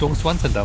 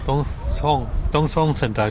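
First: The second syllable sounds like 'Suan'. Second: The second syllable sounds like 'Song'. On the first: The speaker calls it wrong. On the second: The speaker calls it right.

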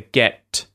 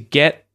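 First: The final T is released with a puff. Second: The final T is held without release. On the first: "aspirated like the get, t, like that" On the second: "It's actually being muted because the next sound is a TH"

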